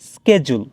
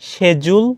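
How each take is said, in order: First: The word begins with an 'sk' sound. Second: The word begins with an 'sh' sound. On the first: "American ইংলিশে এটার উচ্চারণ হবে স্কেজুল" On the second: "ইংলিশে এটার উচ্চারণ হবে শেজুল"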